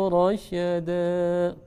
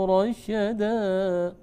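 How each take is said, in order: No difference in how they are said.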